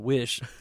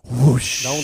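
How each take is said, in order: First: The word has a short 'i' vowel. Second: The word has a rounded 'oo' vowel. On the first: The speaker calls it right. "pronounce the word wish correctly" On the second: The speaker calls it wrong. "He still says whoosh"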